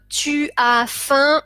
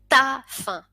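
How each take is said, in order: First: Both words tu and as are said separately. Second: Tu and as merge into one syllable. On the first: Careful, formal speech. "au lieu de dire" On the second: Casual, familiar speech. "on va dire t'as faim ... ces contractions, c'est du français familier"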